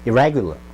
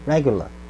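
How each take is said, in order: No difference in how they are said.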